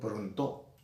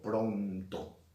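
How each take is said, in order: First: The stress falls on the last syllable. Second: The stress falls on the first syllable. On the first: The speaker calls it wrong. "Yo no digo pronto" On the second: The speaker calls it right. "la mayor fuerza de voz es pron"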